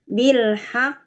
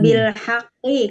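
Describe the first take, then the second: First: The phrase ends on a bare consonant. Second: The phrase ends with a final vowel sound. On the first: The reader stops at this word. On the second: The reading continues without stopping.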